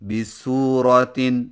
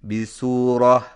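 First: The word ends with a tan sound. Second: The word ends with a silent h sound. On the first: The word is read without stopping. "جب آخری حرف گولتا ہو" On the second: The word is read at a stop. "جزم والی ہا سے بدل کر وقف کریں"

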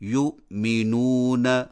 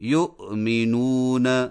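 First: The sukun letter is held steady without any bounce. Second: The sukun letter shakes with a slight vowel bounce. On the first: The speaker calls it right. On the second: The speaker calls it wrong.

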